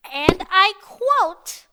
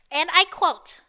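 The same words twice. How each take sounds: First: "and I quote" stretched slowly, louder; "and I quote" with each word slowly leaned on; drawn-out emphasis. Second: Said in the usual way. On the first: Real, not acted. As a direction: draw out "and I quote" for comic weight. Repeats it for comic emphasis.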